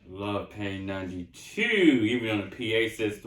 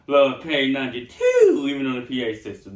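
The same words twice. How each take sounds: First: It is said flatly, without much energy. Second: It is said with passion and more energy. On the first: The speaker calls it wrong. "I didn't even say it with passion" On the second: The speaker calls it right. "Let me try it again"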